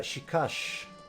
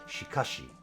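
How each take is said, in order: First: The word ends in a bare sh sound. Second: The word ends with a clear shi syllable. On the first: The speaker calls it wrong. "I just always tend to default to saying these like an S H sound rather than an S H I sound" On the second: The speaker calls it right. "you should probably pronounce this as shikashi"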